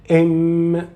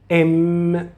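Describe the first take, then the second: First: The hum comes out clearly through the nose. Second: The same.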